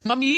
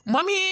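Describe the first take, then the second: First: Said in the usual way. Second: Calling mummy high and rising. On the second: Acted. (Mummy को ऊँची, चढ़ती आवाज़ में पुकारना) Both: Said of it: "क्यों चिल्ला रहा है तू".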